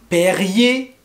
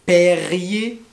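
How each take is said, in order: Both takes have the same delivery.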